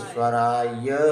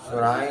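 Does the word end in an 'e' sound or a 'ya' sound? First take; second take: ya sound; e sound. First: The word ends in a clear 'ya' sound. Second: The word ends in an 'e' sound. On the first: The speaker calls it right. "या बोलो" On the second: The speaker calls it wrong. "ए ना बोल के"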